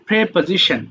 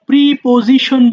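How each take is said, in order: First: The first syllable is said like 'preh'. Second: The first syllable is said like 'pree'. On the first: The speaker calls it right. "But শুদ্ধ উচ্চারণ আসলে প্রেপোজিশন" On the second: The speaker calls it wrong. "আমরা প্রিপোজিশন বলি"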